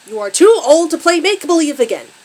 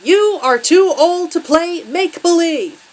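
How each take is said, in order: First: Loud, high angry father's scream; furious scream. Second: Loud, high, slow furious yell; yelled word by word. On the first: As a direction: scream the scolding in one enraged run. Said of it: "Her father screams". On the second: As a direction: hammer out each word in a drawn-out shout. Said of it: "each rip punctuated by a yelled word". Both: A narrator's reading.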